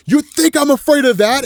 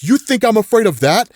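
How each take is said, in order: First: High-pitched, forceful challenge; heightened acted defiance. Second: Raised, challenging question; defiant retort, held somewhat in check; acted defiance. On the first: Johnny facing the imminent end, heightened defiance. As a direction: throw the question out, pitched way up. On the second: Johnny facing billions of bugs, acted defiance. Hero defies the oncoming swarm.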